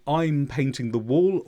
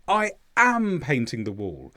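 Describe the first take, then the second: First: The verb to be is not stressed. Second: The word am is stressed.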